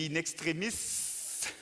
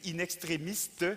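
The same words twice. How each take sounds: First: The word is said without a T sound. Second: The word is said with a T sound. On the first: The speaker calls it right. "c'est inextrémiste. Il n'y a pas de T" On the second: The speaker calls it wrong. "vous avez dit inextrémiste"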